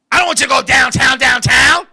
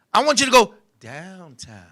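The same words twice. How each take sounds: First: "downtown, downtown" said firm and brisk; plain loud downtown. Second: Slow, lower, softened "downtown", drawn out; suggestive DOWNTOWN. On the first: Woman correcting him about "downtown", brisk and loud. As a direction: say "downtown, downtown" loudly, like the ordinary place name. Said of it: "This is how she said it". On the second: Woman hinting at oral sex with "downtown", slow and sultry. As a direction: drop "downtown" into a slow, hushed innuendo. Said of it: "See how I said it, right?". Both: Shown as a demonstration.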